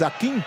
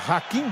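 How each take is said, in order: First: The name begins directly with a vowel. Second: The name begins with an audible h sound. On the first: The speaker calls it right. "o H no espanhol é sem o som de R" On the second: The speaker calls it wrong. "Muita gente fala Hakim"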